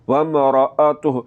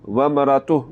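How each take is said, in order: First: A glottal catch follows the 'ra' sound. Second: No glottal catch follows the 'ra' sound. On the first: The speaker calls it right. "असल लफ़्ज़ क्या है?" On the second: The speaker calls it wrong. "अगर हमज़ा के बगैर पढ़ेंगे ... तो ये गलत है"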